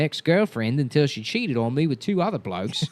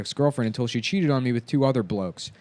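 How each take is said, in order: First: It is read in a put-on character voice. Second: It is read in the speaker's normal voice.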